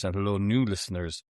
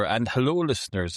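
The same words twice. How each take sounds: First: New leaned on to contrast with listeners; stress on new. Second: Said in the usual way. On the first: Shown as a demonstration. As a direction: hit the word new, hello new listeners.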